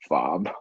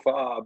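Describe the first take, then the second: First: It is said in a condescending, belittling tone. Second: It is said in a warm, affectionate tone. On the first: The term is used to look down on someone. "use it as a condescending way, like fob" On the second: The term is used as friendly teasing. "in like a a loving lovingly way"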